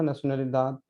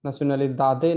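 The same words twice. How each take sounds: First: "nacionalidad" ending on a dental d; silent final e. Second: "nacionalidade" with a full "de" ending; wrongly voiced final e. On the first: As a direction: drop the final vowel, stop "nacionalidad" on d. ("nacionalidad" का अंत द पर, बिना "ए") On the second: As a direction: sound out the last e of "nacionalidade" as ए. ("nacionalidade" के अंत में साफ़ "दे" बोलकर) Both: Shown as a demonstration. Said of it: "nacionalidade नहीं पढ़ना है".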